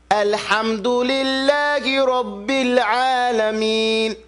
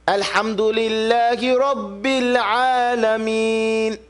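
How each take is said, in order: The two takes are said the same way.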